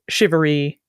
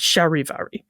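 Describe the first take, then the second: First: It is said with an English pronunciation. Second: It is said the French way, hitting both syllables. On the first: "our English word" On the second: "in the French, it's you sort of hit both syllables"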